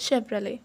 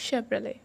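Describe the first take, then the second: Both takes have the same delivery.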